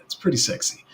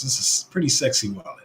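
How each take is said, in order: First: Pretty sexy breathed out in a hushed whisper; whispered aside. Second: Said in the usual way. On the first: Shown as a demonstration. Streamer praising the wallet to chat, whispered. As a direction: whisper it to yourself, savouring it.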